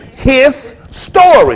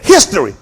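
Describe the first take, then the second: First: It is said slowly as two words. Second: It is said quickly as one word. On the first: It is one man's own account of events. The speaker calls it right. "Slow down" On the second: It is the ordinary word for the past. The speaker calls it wrong. "You keep saying history. You can say it fast as you want"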